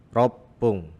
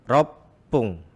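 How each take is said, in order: Both takes have the same delivery.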